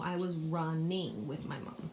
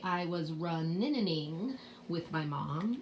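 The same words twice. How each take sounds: First: The n sound in running is said once. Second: The n sound in running is said twice. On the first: The speaker calls it right. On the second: The speaker calls it wrong. "We don't say"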